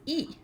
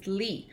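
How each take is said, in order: First: The name is said without an L sound. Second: The name starts with an L sound. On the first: This is the form used in Korea. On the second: This is the usual form outside Korea.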